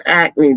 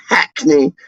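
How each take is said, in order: First: "Acme" starting straight on the vowel, no H; dropped H. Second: "Hackney" with a sounded H at the start; H pronounced. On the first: East Londoner correcting the posh way, "Acme" without any H. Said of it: "you don't pronounce the H". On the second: East Londoner rejecting the posh way, "Hackney" with H sounded. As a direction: say "Hackney" with a clear breathy H. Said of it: "would pronounce the H". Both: Shown as a demonstration.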